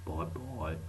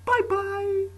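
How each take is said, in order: First: Lower, softer goodbye; low bye. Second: Much higher, louder squeal; squeaky bye. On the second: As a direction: squeal the goodbye very high. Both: Acted. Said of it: "why I said that like that".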